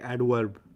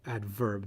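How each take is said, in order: First: The middle consonant is a W sound. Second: The middle consonant is a clear V sound. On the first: "They say adverb. ... they pronounce the V as a W" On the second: "they don't say adverb"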